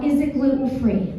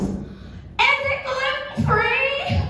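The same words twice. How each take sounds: First: Quoted mom's call, only lightly acted; brisk, toned-down echo of a yell; mild retold yell. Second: Very high, drawn-out mock holler; stretched, hammed-up high cry; mock mom yell. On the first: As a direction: retell the holler without shouting it. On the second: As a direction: imitate a mom calling across the room. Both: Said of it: "that mom that yelled out".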